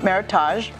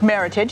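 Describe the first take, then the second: First: The ending does not sound like heritage. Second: The ending sounds like the end of heritage. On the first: The speaker calls it wrong. "not Meritage" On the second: The speaker calls it right. "it's pronounced Meritage"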